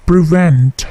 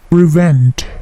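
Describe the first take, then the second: No difference in how they are said.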